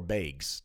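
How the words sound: The word is said in a Midwest accent.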